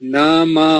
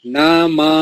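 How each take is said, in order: First: The word ends with an 'a' vowel. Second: The word ends with an 'a' vowel.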